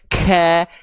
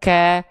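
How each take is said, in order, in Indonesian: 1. Hembusan nafasnya berlebihan dan kuat. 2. Hembusan nafasnya ringan dan alami. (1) "nafas yang lebay berlebihan" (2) "Cukup dilafalkan dengan natural"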